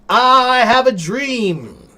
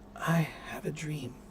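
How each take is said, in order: First: It is spoken clearly and audibly. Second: It is spoken quietly and mumbled. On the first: Everyone in the room understands it. The speaker calls it right. "everyone in the room will hear that and know what you said" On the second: People at the back cannot hear it. The speaker calls it wrong. "Grandma in the back of the room is not going to hear that"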